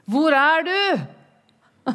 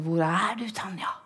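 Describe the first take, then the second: First: High, loud, slow call. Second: Said in the usual way. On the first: Retold or imitated. God calling for her, high, loud and slow.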